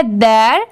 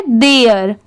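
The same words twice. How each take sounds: First: "देयर" drawn out as dair, one syllable; one-syllable "their". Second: "देयर" drawn out as de-yar; two-syllable "there". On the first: Teacher showing the difference between both words, one-syllable dair. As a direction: say "देयर" slowly with no y glide. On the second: Teacher showing the difference between both words, two-syllable de-yar. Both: Shown as a demonstration. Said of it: "दोनों में यही difference है".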